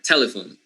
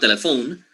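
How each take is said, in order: First: The middle syllable is reduced and unstressed. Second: The middle syllable is not reduced. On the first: The speaker calls it right. "The second syllable is totally reduced, which means it's unstressed" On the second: The speaker calls it wrong. "It's not telephone"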